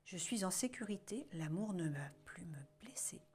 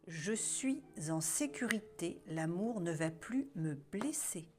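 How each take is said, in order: First: It is said at the quietest level. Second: It is said at the loudest level.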